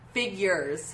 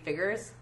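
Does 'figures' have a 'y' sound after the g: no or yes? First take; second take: yes; no. First: It is said 'figyures' with a 'y' sound. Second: It is said 'figgers' with no 'y' sound. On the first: The speaker calls it right. "How does he say it?" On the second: The speaker calls it wrong. "I say figures, and I don't pronounce the years part"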